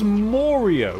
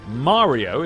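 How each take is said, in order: First: The first vowel is pronounced like 'or'. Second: An American pronunciation of the name. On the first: "a very strange way of pronouncing Mario" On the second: "if you're American"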